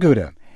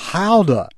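First: The word starts with a hard g sound. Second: The word starts with a guttural sound. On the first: The speaker calls it wrong. "It is not Gouda" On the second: The speaker calls it right. "Add as much guttural as you like to the front"

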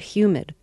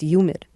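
First: The word begins with a clear h sound. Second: The word begins with a y sound, no h. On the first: "you said humid" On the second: "when you did it New York style"

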